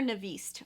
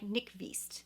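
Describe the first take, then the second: First: The name is said like 'Navist'. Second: The name is said like 'Nyqvist'. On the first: The speaker calls it wrong. "I keep calling her Navist" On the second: The speaker calls it right. "I know it's like Nyqvist"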